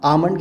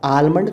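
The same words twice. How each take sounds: First: "आमंड" with no L; correct pronunciation. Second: "आलमंड" with L sounded; wrong pronunciation. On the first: Teacher showing how it is said, correctly pronounced. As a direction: say "आमंड", L silent. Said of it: "कहते हैं". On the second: Teacher showing how not to say it, mispronounced. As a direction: pronounce the L in "आलमंड". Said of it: "तो नहीं कहते". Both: Shown as a demonstration.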